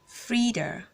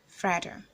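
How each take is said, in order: First: The first vowel sounds like 'ee'. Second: The first vowel sounds like 'eh'. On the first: The speaker calls it right. "the letter E makes the E sound" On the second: The speaker calls it wrong. "for the guy it's called Fred"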